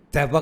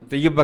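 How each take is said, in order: First: طیبہ said as "TAI-ba", two syllables; Taiba, without shad. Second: طیبہ said as "tay-YA-ba", doubled y; Tayyiba, with shad. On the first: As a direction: say طیبہ with a single y glide. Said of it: "کے معنی ہے مدینہ". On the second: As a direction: say طیبہ in three syllables. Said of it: "طیبہ کے معنی ہے پاک". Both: Shown as a demonstration.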